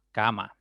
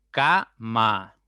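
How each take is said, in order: First: Said in the usual way. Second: "cama" split into ca - ma, each part loud; syllable by syllable. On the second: Shown as a demonstration. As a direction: break "cama" into two separate beats, ca, ma. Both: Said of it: "ya tienen dos sílabas".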